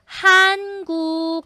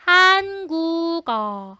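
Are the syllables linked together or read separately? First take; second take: linked; linked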